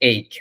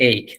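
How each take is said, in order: The two takes are said the same way.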